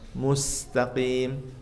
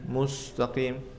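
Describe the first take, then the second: First: The s sound is thin and light. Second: The s sound is thick and heavy. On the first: The speaker calls it right. "Tarik biar tipis" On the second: The speaker calls it wrong. "Kalau enggak senyum nanti tebal menjadi seperti ini"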